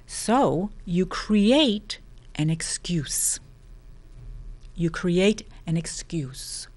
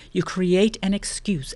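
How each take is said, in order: First: Slow whisper, leaning in; whispered emphasis. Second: Said in the usual way. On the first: Acted. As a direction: whisper the point slowly. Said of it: "whispered repeat of key line". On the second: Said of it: "voiced repeat of key line".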